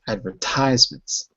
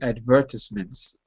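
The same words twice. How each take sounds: First: It is said with an American pronunciation. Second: It is said with a British pronunciation. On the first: "I'm using U S English" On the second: "In British English, it would be advertisements"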